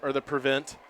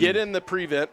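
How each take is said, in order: First: Prevent is said the everyday way. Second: Prevent is said the football-term way. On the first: It is the ordinary verb. "as we would normally pronounce the word" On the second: It names a defensive formation. "unless it was a football situation"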